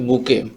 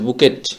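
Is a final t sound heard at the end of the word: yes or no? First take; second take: no; yes. First: The word ends without any t sound. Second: The word ends with a clear t sound. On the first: The speaker calls it right. "সঠিক উচ্চারণ করতে হবে বুকে" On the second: The speaker calls it wrong. "বানান করে লিখতে যাব তখন অবশ্যই এখানে যে টি আছে"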